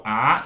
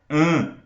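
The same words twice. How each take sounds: First: A as an open oral vowel; vogal oral. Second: AN as a nasal A, no N sound; vogal nasal. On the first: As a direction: say "A" with no nasal sound. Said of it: "deixe de ser uma vogal oral". ("A" oral, sem nasalizar) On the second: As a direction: send "an" through the nose. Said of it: "vira uma vogal nasal". ("an" nasal, sem som de N) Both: Shown as a demonstration.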